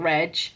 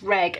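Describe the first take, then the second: First: The G is a soft sound. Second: The G is a hard sound. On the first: The speaker calls it wrong. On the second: The speaker calls it right. "it's a hard G"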